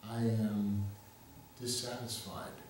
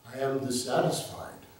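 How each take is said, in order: First: It is said at a normal, softer volume. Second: It is said in a louder voice.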